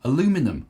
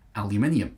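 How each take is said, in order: First: It is said in an American accent. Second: It is said in a British accent. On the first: "Over there, you say aluminum" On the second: "I say aluminium, because that's how it's spelt"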